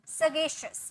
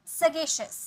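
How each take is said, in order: No difference in how they are said.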